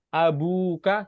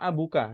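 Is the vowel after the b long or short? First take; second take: long; short. First: The vowel after the b is held long. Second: The vowel after the b is kept short. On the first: The speaker calls it right. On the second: The speaker calls it wrong.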